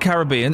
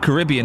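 First: It is said in a non-American way. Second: It is said in an American way.

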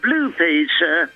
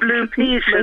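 First: The word Blue is stressed. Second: The word Peter is stressed. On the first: It contrasts with some other coloured Peter. The speaker calls it wrong. "not Blue Peter" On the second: It names the children's show. The speaker calls it right. "emphasis on Peter, not the blue bit"

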